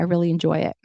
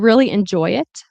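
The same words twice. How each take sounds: First: The final T is a glottal stop. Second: The final T is clearly released. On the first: "make that a glottal stop" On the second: "that's fine in careful speech"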